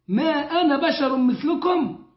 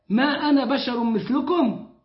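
No difference in how they are said.

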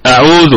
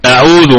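First: The middle vowel is clipped short, said quickly. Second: The same.

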